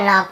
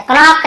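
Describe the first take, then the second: First: नॉक starting straight on the N; नॉक with the K left silent. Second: क्नॉक with the K voiced before N; wrong K sounded. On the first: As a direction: say नॉक as "nock", no K. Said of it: "केवल नॉक पढ़ेंगे". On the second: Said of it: "क्नॉक नहीं पढ़ेंगे". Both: Shown as a demonstration.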